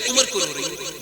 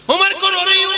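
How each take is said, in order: First: Said in the usual way. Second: High, loud anguished lament; wailing widow's cry. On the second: Shown as a demonstration. Preacher acting the widow weeping for Umar, loud anguished wail. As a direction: let the widow's grief burst out. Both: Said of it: "دھیان سے سننا".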